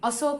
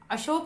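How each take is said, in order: First: It is said in the rural village way. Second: It is said in the standard city way. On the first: The speaker calls it wrong. "ग्रामीण के लोग अशोक बोलेंगे" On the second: The speaker calls it right. "शहर के लोग अशोक बोलेंगे"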